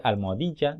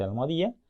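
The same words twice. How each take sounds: First: Almohadilla with a clear ll, "almoadiya"; correct ll. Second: Almohadilla as "almoadia", ll dropped. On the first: Teacher saying almohadilla correctly. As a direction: give almohadilla its full ll. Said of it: "dice almohadilla". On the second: Teacher imitating the wrong almohadilla. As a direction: slur almohadilla without the ll. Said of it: "no dice almohadilla". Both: Shown as a demonstration.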